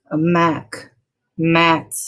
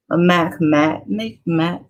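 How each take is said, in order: First: "mac matte" said as two separate words; careful pronunciation. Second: "mac matte" tangled, first word sliding to "make"; stumbling pronunciation. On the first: Vlogger retrying a tough product name, carefully separating "mac" and "matte". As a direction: set "mac" apart from "matte" with a pause. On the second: Vlogger naming her lip color, stumbling on "mac matte, make matte". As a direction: trip over "mac matte", slipping into "make matte". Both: Real, not acted. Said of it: "that's kinda tough to say".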